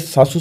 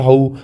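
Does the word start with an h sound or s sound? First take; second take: s sound; h sound. First: The word starts with an s sound. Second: The word starts with an h sound. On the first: "सासू शब्द होता है" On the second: "स को जैसे ह बोलते हैं"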